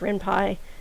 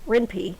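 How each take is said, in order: First: The last syllable sounds like 'pie' in Python. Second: The last syllable does not sound like 'pie'. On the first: "which makes sense because it's Python" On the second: "which is what I pronounce it like"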